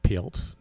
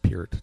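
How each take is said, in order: First: The name is said with a French accent. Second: The name is said in a plain accent. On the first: It mocks the name as fancy. The speaker calls it wrong. "pronouncing it with his French accent" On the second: It is the name's real pronunciation. The speaker calls it right. "no, it's just Peart"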